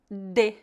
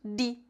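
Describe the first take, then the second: First: It is said in the Paraná style. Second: It is said in the Recife style. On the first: "Em algumas cidades do Paraná, as pessoas pronunciam de" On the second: "em Recife, Pernambuco, eles pronunciam de"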